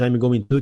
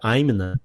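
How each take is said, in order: First: Each word is said fully and separately. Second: It is squeezed into a short reduced form. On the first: "que todo mundo aprende I'm going to" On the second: "que vira I'm na"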